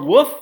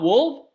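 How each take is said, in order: First: The L sound is dropped from the word. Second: The L sound is clearly pronounced in the word. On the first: "I say woof" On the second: "and not wolf"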